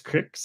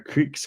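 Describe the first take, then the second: First: The vowel is a short i sound. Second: The vowel is a long ee sound. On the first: "cricks up there?" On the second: "In our creeks"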